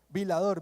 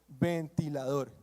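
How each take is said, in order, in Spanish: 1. La palabra está acortada, le faltan las sílabas del medio. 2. La palabra se dice completa, con todas las sílabas. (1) "decía vilador" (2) "se dice ventilador"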